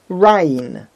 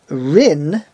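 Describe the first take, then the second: First: The vowel is the diphthong 'ai'. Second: The vowel is a plain 'ee'. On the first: "It has the two Yuds because it has the patach under the Reish" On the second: "If you wanted to pronounce it Rin"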